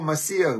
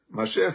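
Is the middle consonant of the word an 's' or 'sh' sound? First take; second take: s; sh. First: The middle consonant is an 's' sound. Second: The middle consonant is a 'sh' sound.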